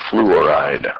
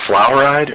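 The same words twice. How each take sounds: First: Fluoride said as "FLOO-or-ide"; fluoride opened out as flew, or, ide; "flew-oride" pronunciation. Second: Fluoride said as "FLOUR-ide", like baking flour; fluoride mispronounced as flour plus ide; wrong "flour-ide" pronunciation. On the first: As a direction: say fluoride with a clear "oo" after the fl. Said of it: "Is it fluoride or fluoride?". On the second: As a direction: say fluoride with an "ow" in the first syllable. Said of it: "It's not fluoride". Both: Shown as a demonstration.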